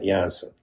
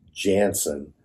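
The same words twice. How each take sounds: First: The name is said with a Dutch pronunciation. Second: The name is said with an American English pronunciation. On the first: This is the family's original way of saying it. The speaker calls it right. "not Janssen" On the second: This is how most people would say it. The speaker calls it wrong. "people would have always wanted to say Janssen"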